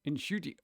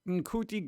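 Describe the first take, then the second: First: The name has a hissing S sound inside. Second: The name has a hard K sound inside. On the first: The speaker calls it right. "that's a C, like a S sound" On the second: The speaker calls it wrong. "I wanted to call him in in cutie"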